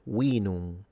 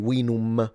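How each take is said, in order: First: The final m is nasalized, not fully closed. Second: The final m is fully closed by the lips. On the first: The speaker calls it right. "they would say wallum and vinum. Note that the M is nasalized in classical" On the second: The speaker calls it wrong. "so you don't say vinum"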